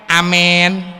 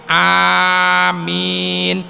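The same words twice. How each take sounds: First: The first vowel is fronted toward an e. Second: The first vowel is long, the m single. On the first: The speaker calls it wrong. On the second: The speaker calls it right. "Dipanjangkan hamzahnya, amimnya ditahfif"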